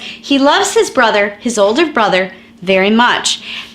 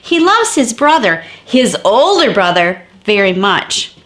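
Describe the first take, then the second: First: The phrase 'his older brother' is said without emphasis. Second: The phrase 'his older brother' is said with emphasis. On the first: It just adds a little extra information. "when you use parentheses, it's just meant to give the reader a little bit more information" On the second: He may love his younger brother less. "emphasize those words that are in the parenthetical. Let me show you"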